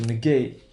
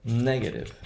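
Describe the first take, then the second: First: Negate with a weak first syllable, strong GATE; stress on GATE in negate. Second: Negative with NEG strong, two weak syllables after; stress on NEG in negative. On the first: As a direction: say nuh-GATE. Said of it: "We have the O one stress pattern". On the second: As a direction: say NEG-uh-tive. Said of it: "one O O". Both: Shown as a demonstration.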